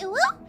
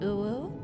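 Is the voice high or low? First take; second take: high; low. First: It is said in a high voice. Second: It is said in a low voice.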